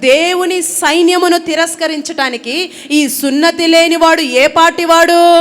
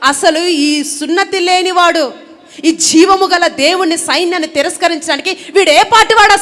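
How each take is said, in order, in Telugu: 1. సాధారణ, మామూలు స్వరంలో చెప్పబడుతుంది. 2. రోషంతో, ఉద్రేకంతో చెప్పబడుతుంది. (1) "మామూలుగా నేనేదో మామూలుగా చెప్పా" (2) "రోషముతో"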